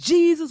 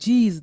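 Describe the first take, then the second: First: The word is said loudly, with force. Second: The word is said softly, without force.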